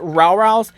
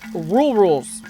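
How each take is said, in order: First: The vowel sounds like the word 'row'. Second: The vowel sounds like the word 'rule'. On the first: The speaker calls it wrong. "I've been calling these birds Row Rows" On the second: The speaker calls it right. "when they're actually called Rule Rules"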